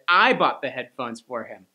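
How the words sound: The stress falls on the word I. The speaker, not someone else, did the buying. The speaker calls it wrong. "you stressed a different word by accident"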